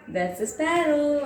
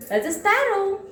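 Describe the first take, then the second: First: Said in the usual way. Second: Bright high naming. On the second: Shown as a demonstration.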